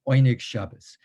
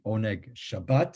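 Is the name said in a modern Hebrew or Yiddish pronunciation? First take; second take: Yiddish; modern Hebrew. First: It uses Yiddish vowels, ending in -os. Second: It uses modern Hebrew vowels, ending in -at. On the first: The speaker calls it right. "These were Yiddish speaking people" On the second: The speaker calls it wrong. "which is the um, Hebrew, modern Hebrew pronunciation, but that's not quite right"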